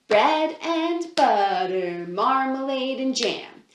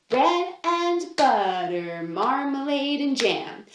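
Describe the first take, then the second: No difference in how they are said.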